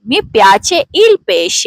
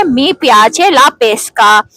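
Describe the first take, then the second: First: "pesce" said PEH-sheh with a soft sh, very slowly; slow the whole phrase and glide into the sh; teacher contrasting pesce with pesca; soft sh sound. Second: "pesca" said PEH-skah with a hard k, very slowly; slow the whole phrase and stress the hard sk; teacher contrasting pesca with pesce; hard sk sound. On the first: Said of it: "इसे पेशे पढ़ा जाएगा". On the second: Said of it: "इसे पेस्का पढ़ा जाएगा". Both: Shown as a demonstration.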